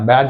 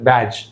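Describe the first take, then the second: First: The word is said with a d sound. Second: The word is said without a d sound. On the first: The speaker calls it wrong. "బ్యాడ్జ్ కాదు" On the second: The speaker calls it right. "డి అనేది silent"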